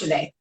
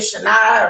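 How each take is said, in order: First: The name ends with an ay sound. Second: The name ends with an ah sound. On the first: The speaker calls it right. "when you say it out loud, it's" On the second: The speaker calls it wrong. "most people say my first name wrong"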